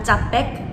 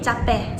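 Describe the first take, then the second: First: The final k is clearly pronounced. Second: The final k is not clearly released. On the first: The speaker calls it wrong. "bukan capek" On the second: The speaker calls it right. "Tidak dihafal alfabet K itu"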